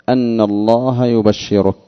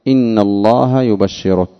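First: The first word begins with an 'a' vowel. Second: The first word begins with an 'i' vowel. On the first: "والأكثرون بفتح الهمزة" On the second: "إن الله بكسر الهمزة"

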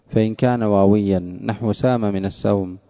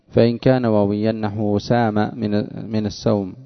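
No difference in how they are said.

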